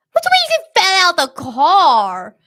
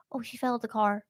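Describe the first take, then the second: First: High, loud mock disbelief; incredulous shout. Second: Softer, casual mock excuse; offhand excuse. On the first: Couple challenges attacker's story, high incredulous shout. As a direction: throw the excuse back in a raised, outraged yell. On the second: Attacker explains to the couple, quiet offhand excuse. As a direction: toss it off quietly, as if nothing happened.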